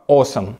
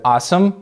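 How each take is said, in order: First: The first vowel is a clear rounded o. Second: The first vowel falls between o and a. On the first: "британцы говорят четко awesome, от слова о" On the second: "американцы говорят awesome, ну, как будто бы такой звук между о и а"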